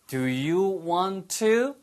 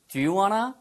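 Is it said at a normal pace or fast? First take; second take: normal; fast. First: It is said at a normal, careful pace. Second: It is said fast, with reduced sounds.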